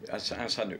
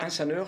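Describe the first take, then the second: First: The ending is said in a regional accent. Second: The ending is said in standard French.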